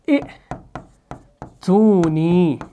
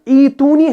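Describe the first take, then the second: First: A glottal stop follows the first short vowel. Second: The first vowel is long, with no glottal stop. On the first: This is the original underlying form. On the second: This is the form as it is written now.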